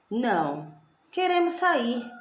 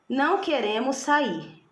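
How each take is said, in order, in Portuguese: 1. Há uma pausa logo depois de 'não'. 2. É dito sem pausa depois de 'não'. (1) "Quando eu insiro a minha vírgula depois do não" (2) "Letra A"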